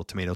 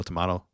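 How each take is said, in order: First: "tomato" said as tuh-MAY-toh; American pronunciation. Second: "tomato" said as tuh-MAH-toh; alternative pronunciation. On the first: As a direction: say "tomato" with a long AY in the middle. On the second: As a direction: say "tomato" with an open AH in the middle. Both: Shown as a demonstration. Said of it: "pet peeve".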